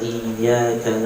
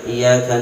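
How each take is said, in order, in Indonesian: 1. Bunyi y-nya ditahan dan dobel. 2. Bunyi y-nya pendek dan tunggal. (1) "dia benarkan tasydidnya" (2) "enggak pakai tasydid"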